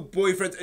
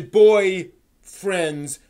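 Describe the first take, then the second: First: Said in the usual way. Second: Put-on slow, louder BOY FRIENDS, split in two; two separate words, stressed. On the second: Shown as a demonstration. Correcting himself to the hosts' viewers, slow louder "boy friends". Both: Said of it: "uh, boy friends".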